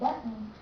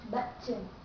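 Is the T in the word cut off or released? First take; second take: cut off; released. First: The T sound is cut off. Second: The T sound is clearly released. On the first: The speaker calls it right. "So we say button" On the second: The speaker calls it wrong. "not button"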